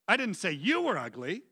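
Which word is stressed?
you. The stress falls on the word you. It was said about someone else. "I said your mama was ugly"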